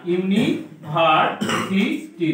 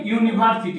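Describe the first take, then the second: First: "university" slowly as "ইউনি", "ভার", "সি", "টি"; slow, chunked "university"; broken into syllables. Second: Said in the usual way. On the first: Shown as a demonstration. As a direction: pull "university" apart with a pause between parts. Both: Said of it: "ইউনিভার্সিটিকে ভাঙলে কি হয়".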